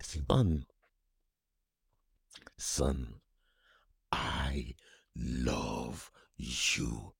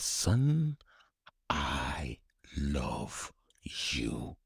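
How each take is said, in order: First: Gentle fatherly voice. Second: Whispered, very slow and drawn out; tender whisper. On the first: Imagined father's hug. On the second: A son imagining his father, whispered slowly. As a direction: breathe it like a longed-for blessing. Voicing the words longed for. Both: Pretend.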